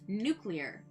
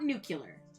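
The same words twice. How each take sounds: First: It is said as new-clear, nothing between c and l. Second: It is said as nucular, with an extra vowel. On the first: The speaker calls it right. "There's there's nothing between the C and the L. It's nuclear" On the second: The speaker calls it wrong. "not nuclear. Stop that"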